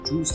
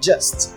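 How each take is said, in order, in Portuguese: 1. A vogal é dita como oo. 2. A vogal é dita como um uh curto. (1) "Cuidado para não falar justo" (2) "o U tem um som de E. Então fica just"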